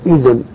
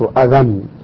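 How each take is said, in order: First: The middle consonant is vowelless. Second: The middle consonant carries a vowel. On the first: This is the form actually attested in usage. "السماع إذن" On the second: This is the form expected by the regular rule. "والقياس أذن، ... محركا على وزن فعل"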